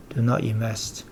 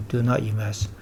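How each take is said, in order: Both takes have the same delivery.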